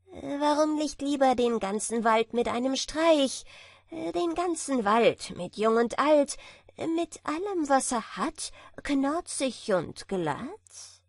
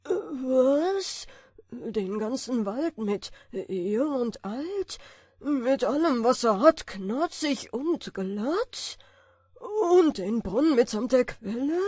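First: High, cocky bragging; boastful tailor. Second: Loud, baffled giant grumble; grumbling giant. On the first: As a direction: brag it sing-song. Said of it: "fragte das Schneiderlein". (prahlerisches Schneiderlein) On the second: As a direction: mutter it, scared and baffled. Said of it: "brummte der leichtgläubige Riese in den Bart". (brummender Riese) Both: A narrator's reading.

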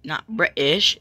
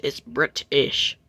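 First: "British" with the t softened, said quickly in one go; wrong British. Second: "British" slowly, with a crisp separate t; correct British. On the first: Correcting how British was said, the wrong pronunciation. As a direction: show the faulty "British", unseparated and casual. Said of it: "you said British wrong". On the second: Correcting how British was said, slow careful pronunciation. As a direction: spell out "British" by sound, slow and deliberate. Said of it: "Pronounce it right next time". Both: Shown as a demonstration.

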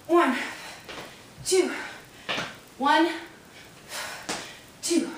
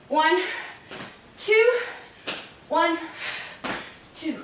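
No difference in how they are said.

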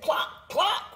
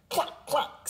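First: Much higher voiced hen cluck; high chirpy cluck once more. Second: Breathy high hen cluck; unvoiced high cluck cluck. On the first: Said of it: "Then she said". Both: A narrator's reading.

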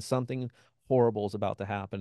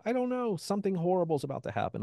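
First: Said in the usual way. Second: High, fast, frightened blurt; panicked. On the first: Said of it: "I just kept saying". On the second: Retold or imitated. To his roommates in the yard, panicked high blurt. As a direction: gasp it out like doom is coming.

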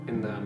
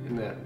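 The two takes are said the same way.

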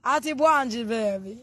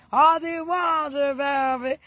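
First: Said in the usual way. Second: Drawn-out call. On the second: Real, not acted. Drawn-out greeting to a friend.

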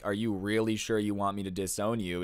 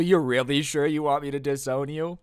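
First: Said in the usual way. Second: Raised, questioning disbelief; pitched-up, pressing question; incredulous. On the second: Retold or imitated. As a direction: imitate a stepmom double-checking in disbelief. Acted stepmom backpedalling, incredulous question.

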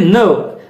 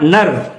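First: "nerve" with a long open vowel, no r; R-less NERVE. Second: "nerve" with a sounded r; wrong R in NERVE. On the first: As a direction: say "nerve" as nuhv, R silent. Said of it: "not nerve". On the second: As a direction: say "nerve" as nurrv, R pronounced. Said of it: "Nerve is wrong". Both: Shown as a demonstration.

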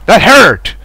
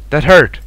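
First: Higher, louder protest at being hit; indignant outcry. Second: Said in the usual way. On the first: Real, not acted. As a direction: cry out HURT in complaint. Repeats it more forcefully.

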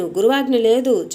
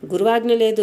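First: గురువాజ్ఞ లేదు pushed out louder and firm; గురువాజ్ఞ లేదు with a firm, raised, falling finish; said loudly. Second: Said in the usual way. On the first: A narrator's reading. Boy repeats his refusal to the messengers, louder: గురువాజ్ఞ లేదు. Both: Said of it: "ఈసారి గట్టిగానే".

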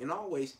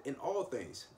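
First: "all" pushed higher and louder; stress on all. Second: Said in the usual way. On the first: Shown as a demonstration. Preacher to congregation, stressing "all". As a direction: lean on "all" in "In all ways". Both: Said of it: "Em-, emphasize the word all".

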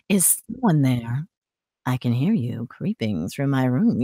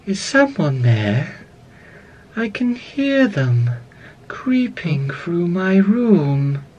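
First: Low, soft, rich voice; slow hushed question, pitched deep and gentle; Ballora. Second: Slow, drawn-out, eerie doll voice; Ballora. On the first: Animatronic hearing someone creeping through her room, low soft voice. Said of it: "low and rich voice". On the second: Animatronic listening for an intruder in her room, slow eerie voice. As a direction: stretch each phrase out, lilting and unhurried. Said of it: "very softly". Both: Acted.

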